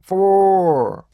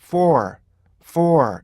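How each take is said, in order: First: For held long, high and loud; overlong, booming for; wrong single-sound for. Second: For with its parts blended, falling at the end; correct, compact for; smoothly blended for. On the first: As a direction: drag for out on one flat high vowel. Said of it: "이렇게 안 하고요". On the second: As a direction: blend for into one short falling sound. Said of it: "부드러운 하나의 소리로 들리는". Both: Shown as a demonstration.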